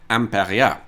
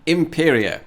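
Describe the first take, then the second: First: The name begins with an 'am' sound. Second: The name begins with an 'im' sound.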